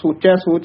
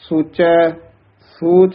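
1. दोनों शब्द बिना रुके एक साथ बोले जाते हैं। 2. पहले शब्द के बाद एक छोटा सा विराम है। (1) "सोचै सोच नहीं कहना" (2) "सोचै पद दे भी थोड़ा जा ठहरा"

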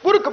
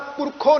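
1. ਸ਼ਬਦ ਦਾ ਅੰਤ ਵਿਅੰਜਨ 'kh' ਨਾਲ ਹੁੰਦਾ ਹੈ। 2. ਸ਼ਬਦ ਦੇ ਅਖੀਰ ਵਿੱਚ ਸੁਣਨਯੋਗ 'u' ਸਵਰ ਹੈ। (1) "ਪੁਰਖ ਪੜ੍ਹਿਆ" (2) "ਉਹਨੂੰ ਆਪਾਂ ਕਰਤਾ ਪੁਰਖੋਂ ਨਹੀਂ ਪੜ੍ਹਿਆ"

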